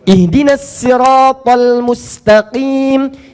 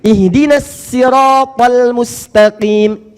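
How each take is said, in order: No difference in how they are said.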